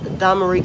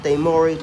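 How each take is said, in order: First: The second vowel sounds like 'ah'. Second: The second vowel sounds like 'oh'. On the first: The speaker calls it right. "I have pronounced Damarie correctly" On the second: The speaker calls it wrong. "I've always pronounced it Damori, but apparently that's wrong"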